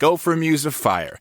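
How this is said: The energy drops at the end of the line.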